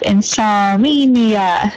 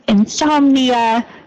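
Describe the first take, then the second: First: An extra vowel follows the 'som' syllable. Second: No extra vowel follows the 'som' syllable. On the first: The speaker calls it wrong. "a slight extra vowel sound after the som" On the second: The speaker calls it right. "insomnia instead of"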